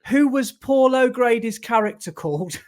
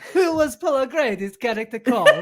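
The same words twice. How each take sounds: First: It is spoken in a Birmingham accent. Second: It is spoken in a put-on Borat-like accent. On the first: "because you said it in your Brummy accent" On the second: "It's Borat singing it. Asking it"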